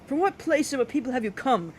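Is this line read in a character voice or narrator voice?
character voice. It is read in a put-on character voice. The speaker calls it right.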